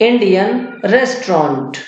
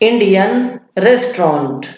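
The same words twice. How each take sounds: No difference in how they are said.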